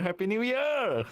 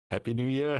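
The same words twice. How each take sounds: First: Excited cheer. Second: Said in the usual way. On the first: Acted. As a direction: cheer it out high. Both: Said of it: "building repeated greeting".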